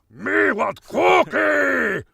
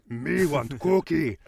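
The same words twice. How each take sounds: First: The voice is deeper and much angrier. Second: The voice is lighter and less angry. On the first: "You just lower the voice, go in much angrier" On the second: "manage a Cookie Monster"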